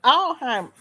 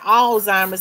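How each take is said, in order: First: The word is said without a z sound. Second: The word is said with a z sound. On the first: "The Z is silent" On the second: "I know people be saying Alzheimer's"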